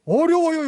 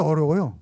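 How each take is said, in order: First: "어려워요" hit much higher and louder; emphatic answer. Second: Said in the usual way. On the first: Real, not acted. Preacher answers his own question to the congregation, emphatic.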